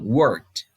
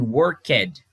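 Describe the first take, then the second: First: The -ed ending is barely heard at the end. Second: The -ed ending is pronounced clearly and separately. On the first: The speaker calls it right. "Você quase não, não sente esse, esse ed no final" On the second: The speaker calls it wrong. "não pronuncio assim"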